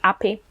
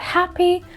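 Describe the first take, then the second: First: The starting H sound is dropped. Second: The starting H sound is pronounced. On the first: "you just say" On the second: "which has the with H sound"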